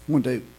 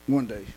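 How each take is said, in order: Both takes have the same delivery.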